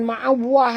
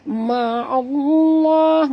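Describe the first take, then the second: First: The middle consonant is a W sound. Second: The middle consonant is a thick L sound. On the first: The speaker calls it wrong. "bukan ma'awah ... Ramai yang salah sebut" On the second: The speaker calls it right. "lam pada lafaz jalalah dibaca tebal"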